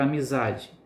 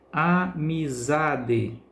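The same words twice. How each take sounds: First: Said in the usual way. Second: Amizade very slowly, syllable by syllable, ZA held longest; stressed syllable demo. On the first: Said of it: "Percebe-se que a sílaba za". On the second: Shown as a demonstration. Teacher showing pupils the tonic syllable, amizade stretched with stress on ZA. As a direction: draw out a-mi-ZA-de, leaning on ZA. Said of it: "pronunciada com mais intensidade".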